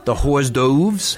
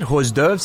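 First: Hors d'oeuvres said slowly as "hors toves"; mispronounced hors d'oeuvres. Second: Hors d'oeuvres asked properly as "or durves"; correct hors d'oeuvres. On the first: Retold or imitated. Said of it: "He can't even pronounce hors d'oeuvres". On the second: Shown as a demonstration. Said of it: "How do you say it?".

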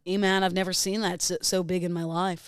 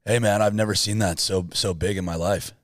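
First: Lightly parroted dude voice; mimicked voice. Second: Low, laid-back character voice; put-on voice. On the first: Co-host mimics everything host does, put-on voice. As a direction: copy his easygoing character voice. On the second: Host feeds a voice to mimic, put-on voice. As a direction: play a drawn-down, easygoing dude. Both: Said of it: "Full on mimic everything you do".

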